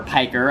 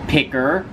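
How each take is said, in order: First: The first vowel is long, as in 'pike'. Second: The first vowel is short, as in 'pick'. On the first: The speaker calls it right. "I suppose it's pronounced Piker" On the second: The speaker calls it wrong. "I did used to pronounce it as Picker"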